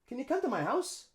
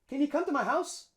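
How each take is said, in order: No difference in how they are said.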